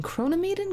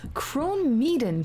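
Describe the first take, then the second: First: Kronemeden with an extra middle syllable, pitched high; questioning pronunciation attempt. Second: Kronmeeden drawn out slowly as "krone-MEE-den"; pronunciation attempt. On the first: Player testing the name another way, Kronemeden high and questioning. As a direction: try Kronemeden as a higher, unsure "krone-uh-MEE-den". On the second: Player sounding out a legendary name, Kronmeeden slow and deliberate. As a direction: say Kronmeeden in two slow parts, krone and meeden. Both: Shown as a demonstration. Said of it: "I could use some pronunciation".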